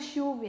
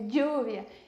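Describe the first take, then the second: First: The 'll' is a hushing 'sh' sound. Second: The 'll' is a soft 'y' sound. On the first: The speaker is from Argentina. "Os argentinos falam bem chiado" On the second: This is the way the speaker learned it. "Eu aprendi dessa forma"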